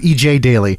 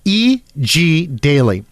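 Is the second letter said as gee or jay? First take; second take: jay; gee. First: The second letter is said as 'jay'. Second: The second letter is said as 'gee'. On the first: The speaker calls it wrong. "everybody makes that mistake. They go, they say it fast" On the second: The speaker calls it right. "E G E G Daily"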